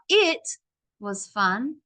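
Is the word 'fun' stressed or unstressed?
unstressed. The last word 'fun' gets no extra push.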